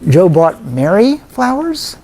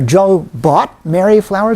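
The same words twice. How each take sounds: First: The word 'Mary' carries the main stress. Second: The word 'bought' carries the main stress. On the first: They were bought for her, not for another woman. "So wrong woman, right?" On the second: He paid for them rather than getting them free. "What does that imply, by the way, when I say it that way?"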